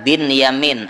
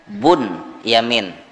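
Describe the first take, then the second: First: The first syllable has the vowel i. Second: The first syllable has the vowel u. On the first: "dibaca bin Yamin" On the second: "atau boleh dibaca Bun Yamin"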